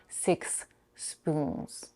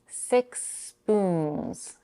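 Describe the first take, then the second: First: There is a stop between the two words. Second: The s is lengthened and joins both words. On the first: The speaker calls it wrong. "and not" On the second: The speaker calls it right. "I'll elongate the s a bit without stopping after six"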